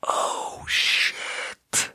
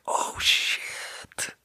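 First: Whispered oh shit again, hushed; hushed stunned whisper; awed gasp. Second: Breathless whispered oh shit; hushed stunned whisper; awed gasp. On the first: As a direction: breathe it out stunned. Repeating the awed reaction. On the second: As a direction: let it out in a hushed gasp of awe. Reacting in awe to the song. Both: Retold or imitated.

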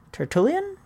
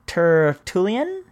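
First: "Tertullian" higher, rising sharply at the end; questioning retry. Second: "Tertullian" very slowly, rising at the end; careful sounding-out. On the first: Host doubting an author's name, "Tertullian" high and questioning. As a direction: lift "Tertullian" into a quicker question. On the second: Host trying an early author's name, "Tertullian" slow and unsure. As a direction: stretch "Tertullian" out as a question. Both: Shown as a demonstration.

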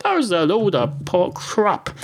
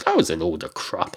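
First: "That was a load of po-, crap" said higher; exasperated higher retake of "That was a load of po-, crap"; higher exasperated repeat. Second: Said in the usual way. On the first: Shown as a demonstration.

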